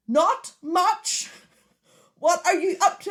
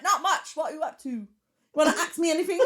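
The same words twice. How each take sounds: First: Loud, high, spaced-out dictation; shouted voice command. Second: Higher, put-on English accent. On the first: Retold or imitated. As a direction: shout each word so the car understands. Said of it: "times of me shouting". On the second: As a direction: dictate in a mock English accent, close to laughing. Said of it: "if I do an English accent".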